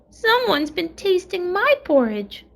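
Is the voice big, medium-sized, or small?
small. It is said in a wee little voice.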